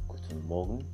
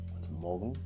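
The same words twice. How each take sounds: No difference in how they are said.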